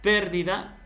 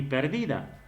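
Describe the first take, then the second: First: Pérdida punched high on PÉR; stress on first syllable. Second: Perdida stressed on the middle DI; stress on second syllable. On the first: Teacher showing how accent changes meaning, pérdida stressed on PÉR. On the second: Teacher showing how accent changes meaning, perdida stressed on DI. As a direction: say perdida as per-DI-da. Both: Shown as a demonstration. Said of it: "es como el que tú digas".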